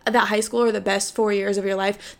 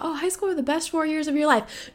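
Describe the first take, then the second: First: Said in the usual way. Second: High mocking singsong of people who loved school; mocking quote. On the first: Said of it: "the people who say that". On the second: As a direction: parrot the cliché with a high mocking lilt. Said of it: "Everybody talks about".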